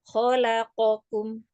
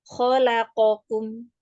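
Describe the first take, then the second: Both takes have the same delivery.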